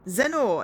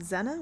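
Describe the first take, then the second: First: The name rhymes with Lenore. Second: The name does not rhyme with Lenore. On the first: The speaker calls it right. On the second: The speaker calls it wrong.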